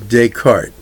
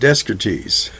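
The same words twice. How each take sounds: First: Some written sounds in the name are left out. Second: Every written sound in the name is pronounced. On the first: "in French, we leave a lot of uh, things out" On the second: "Years ago, I used to pronounce that Descartes"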